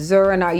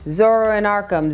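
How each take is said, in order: First: The words are slurred together into one. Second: The words are said clearly and separately.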